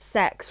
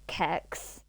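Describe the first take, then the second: First: It is one word beginning with an s sound. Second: It is one word beginning with a k sound. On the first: The speaker calls it right. "it is pronounced" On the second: The speaker calls it wrong. "as my dad pronounces it"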